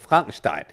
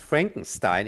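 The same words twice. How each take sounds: First: The name is pronounced the German way. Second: The name is pronounced the English way. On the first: The speaker calls it right. "true German way of saying it" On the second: The speaker calls it wrong. "I hear so many times Frankenstein"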